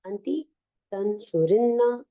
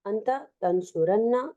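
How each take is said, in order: First: أنت تنصرن as anti tansurinna, ending -inna; feminine form. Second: أنت تنصرن as anta tansuranna, ending -anna; masculine form. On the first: Teacher contrasting the feminine form for students, -inna ending. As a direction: say تنصرن with a doubled nn after kasra, tansurinna. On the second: Teacher contrasting the masculine form for students, -anna ending. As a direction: say تنصرن with a doubled nn and a fa-tha, tansuranna. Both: Shown as a demonstration. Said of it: "when the noon tawkid is added".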